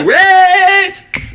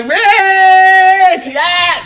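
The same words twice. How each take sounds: First: Very high, long drawn "Rich"; stretched flirty name call. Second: Very high, long stretched "Rich, yeah"; drawn-out flirty name.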